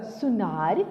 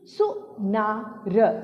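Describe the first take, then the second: First: Said in the usual way. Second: सुनार split slowly into सु, ना, र; syllable by syllable. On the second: Shown as a demonstration. Teacher reading the paragraph word सुनार, syllable by syllable. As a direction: sound out सुनार letter by letter. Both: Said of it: "अब इसे पढ़ते हैं".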